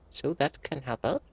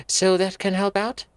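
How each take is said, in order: First: Said in the usual way. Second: A touch higher, questioning Anne; voiced Anne line. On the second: Anne asking the groundkeeper, a touch higher. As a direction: read it as Anne.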